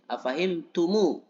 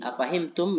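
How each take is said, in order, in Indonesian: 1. Kata ini berakhir dengan vokal u tambahan. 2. Kata ini berakhir dengan bunyi m tertutup. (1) "dibuat menjadi dommah ketika bersambung dengan alif eh, hamzah wasol" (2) "Aslinya tum itu sukun ya"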